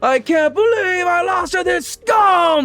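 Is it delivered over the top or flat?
over the top. It is delivered loud and over the top.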